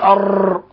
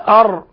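First: The r is trilled with many repeated taps. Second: The r is tapped only once or twice. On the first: The speaker calls it wrong. "ولا نقول أر، لأنه يتولد من ذلك راءات كثيرة، وهذا لحن" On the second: The speaker calls it right. "فنقول أر"

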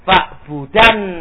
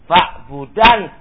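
No difference in how they are said.

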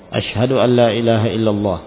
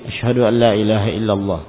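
Both takes have the same delivery.

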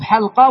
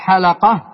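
First: The l has no vowel after it. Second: The l is followed by a short a vowel. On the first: The speaker calls it right. "وإنما الصواب حلقة" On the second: The speaker calls it wrong. "أن يؤتى باللام مفتوحة في كلمة حلقة فيقال حلقة"

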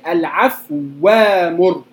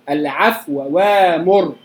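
First: The vowel is dropped and the two sounds merge. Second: The vowel before the second word is partly hidden. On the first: "أو الإدغام الكامل" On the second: "إخفاء الحركة"

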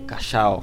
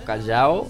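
First: The LL is said with a sh sound. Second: The LL is said with a soft j sound. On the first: "é mais portenho" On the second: "ele é tem som de J"

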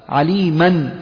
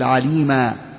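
First: The word ends with an 'n' sound. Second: The word ends with a long 'a' vowel.

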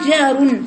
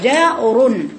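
First: The r sound is light and thin. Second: The r sound is heavy and full. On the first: The speaker calls it wrong. "ما تقوليش جار" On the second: The speaker calls it right. "لأن الراء فيها إيه؟ تفخيم"

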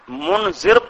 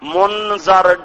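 First: The vowel after the dh sound is i. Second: The vowel after the dh sound is a. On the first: One who warns. The speaker calls it wrong. "منذر پیغمبر ہوتا ہے" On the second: Those who were warned. The speaker calls it right. "زال پہ زبر پڑو، زیر نہ آئے کہیں"

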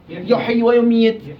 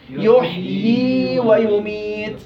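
First: The final ee vowel of yuhyi is cut short. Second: The final ee vowel of yuhyi is held two counts. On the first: The speaker calls it wrong. "كيف تنطق خطأ؟" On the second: The speaker calls it right. "كيف الصح؟ ... يحيي حركتين"

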